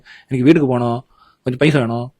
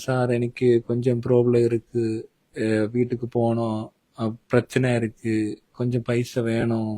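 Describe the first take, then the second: First: It is said very fast, like sped-up playback. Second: It is said at a normal, hesitant pace.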